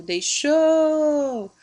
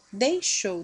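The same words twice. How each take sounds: First: "deixou" with XOU long, high and loud; stressed last syllable. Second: Said in the usual way. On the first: Shown as a demonstration. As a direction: call out "deixou", stretching "xou". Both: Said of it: "também é oxítona".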